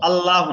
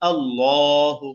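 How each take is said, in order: First: The L sound is light and thin. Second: The L sound is heavy and thick. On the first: The speaker calls it wrong. "আল্লাহ না" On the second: The speaker calls it right. "মোটা করে পড়বো"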